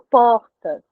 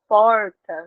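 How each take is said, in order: First: The R is a breathy, aspirated sound. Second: The R is said in the inland regional way. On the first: This is how it is said in Brasília and Rio. "É um R mais uh, aspirado" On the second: This is how it is said in inland São Paulo, Minas and Goiás. "outras regiões de São Paulo que vão falar porta"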